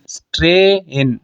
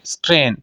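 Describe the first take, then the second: First: स्ट्रेन slowly in two parts, "stre... in"; diphthong split. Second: Said in the usual way. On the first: Shown as a demonstration. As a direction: separate the two vowel sounds in स्ट्रेन. (स्ट्रेन को धीरे से "स्ट्रे... इन" तोड़कर) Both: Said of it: "एक vowel से मैं दूसरे vowel की तरफ गया".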